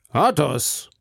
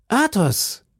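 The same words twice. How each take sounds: First: Wiederholter Ausruf. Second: Hoch und freudig gerufen; überraschter Ruf. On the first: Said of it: "wiederholte Herr von Treville". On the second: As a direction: ruf überrascht den Namen. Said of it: "riefen die zwei Musketiere". (überraschter Ruf Athos!) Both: A narrator's reading.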